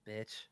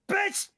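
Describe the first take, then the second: First: The word is said at normal loudness. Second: The word is shouted with full energy. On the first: The speaker calls it wrong. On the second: The speaker calls it right.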